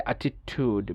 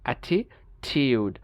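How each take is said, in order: First: American অ্যাটিটিউড ending in TOOD; no Y glide in অ্যাটিটিউড; American pronunciation. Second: British অ্যাটিটিউড, slowly, ending in TYOOD; slow Y glide in অ্যাটিটিউড; British pronunciation. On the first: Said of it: "আমেরিকানরা বলে". (অ্যাটিটিউড-এ উ, American) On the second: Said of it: "ব্রিটিশরা বলে দেখেন". (অ্যাটিটিউড-এ ইউ, British) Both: Shown as a demonstration.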